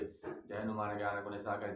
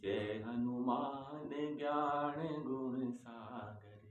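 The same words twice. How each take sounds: First: The line is rushed through very quickly. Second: The line is recited slowly and deliberately. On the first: The speaker calls it wrong. "पढ़ते rail की तरह भागते हुए" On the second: The speaker calls it right. "एक एक दोहे को पढ़िए।"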